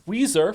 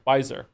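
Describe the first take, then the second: First: The name does not rhyme with Kaiser. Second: The name rhymes with Kaiser. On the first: The speaker calls it wrong. "Not sure if I'm saying that right" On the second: The speaker calls it right. "the name's pronounced like Kaiser with a"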